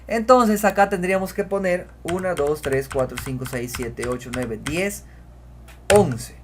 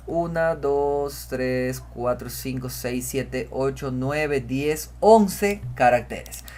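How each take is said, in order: First: Said in the usual way. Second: Counting out slowly, one by one; slow teacher's count. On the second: Shown as a demonstration. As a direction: count slowly so students follow. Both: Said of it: "Vamos a contar".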